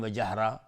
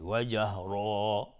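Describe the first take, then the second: First: جهرا said quickly with a short final a; wrong short ending. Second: جهرا slow, with the final aa drawn out; lengthened ending. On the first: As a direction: cut the last vowel of جهرا short. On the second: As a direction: stretch the last aa of جهرا for two beats. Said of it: "باید کشید". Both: Shown as a demonstration.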